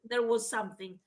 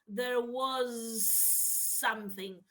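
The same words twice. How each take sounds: First: The phrase is spoken at normal speed. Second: The phrase is spoken very slowly.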